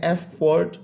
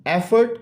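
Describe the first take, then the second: First: एफर्ट in two beats, एफ-फोर्ट; syllable by syllable. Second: Said in the usual way. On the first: Shown as a demonstration. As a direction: split एफर्ट with a full second vowel, एफ then फोर्ट. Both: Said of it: "two syllable word है".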